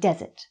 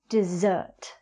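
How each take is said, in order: First: The stress is on the first syllable. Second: The stress is on the second syllable. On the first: It is a dry sandy landscape. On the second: It is what you have after a meal.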